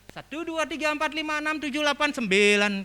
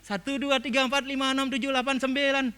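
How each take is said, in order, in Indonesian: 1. Angka dihitung dengan nada naik-turun yang beragam. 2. Angka dihitung dengan nada datar dan rata. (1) "kayak di Gianyar kalau di Ubud kan bilang" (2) "kayak datar nadanya"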